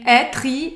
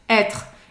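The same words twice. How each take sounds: First: The word ends with a vowel after the R. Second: The word ends on the R sound. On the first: The speaker calls it wrong. "nem être" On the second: The speaker calls it right. "A pronúncia dele termina no R"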